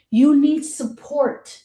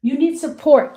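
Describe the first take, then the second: First: Slow and deliberate; You need support, drawn out; slow emphatic. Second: Louder, higher and quicker; You need support, punched; louder push. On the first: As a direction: spell it out. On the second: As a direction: press it home. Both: Shown as a demonstration.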